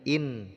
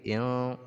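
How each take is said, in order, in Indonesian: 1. Bunyi n diucapkan penuh dan jelas. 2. Bunyi n melebur menjadi dengung sengau. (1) "jangan lagi in" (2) "tapi in"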